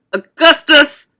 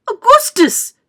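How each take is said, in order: First: Loud call, less high than a mother's; father's cry. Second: Very high, loud mother's call; mother's cry. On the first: Father cries out to his son, loud. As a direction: cry out firmly and loudly for your son. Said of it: "cried Mister Gloop". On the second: Mother cries out to her son at the river, high. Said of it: "cried Missus Gloop". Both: A narrator's reading.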